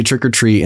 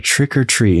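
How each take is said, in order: First: Said in the usual way. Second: Imitating her, TRICK leaned on and pitched up; mimicked "Trick or treat", weight on TRICK; puzzled stress on TRICK. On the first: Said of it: "they say, "Trick or treat". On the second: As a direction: say TRICK with emphasis, as if unfamiliar. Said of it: "puts emphasis on the word trick".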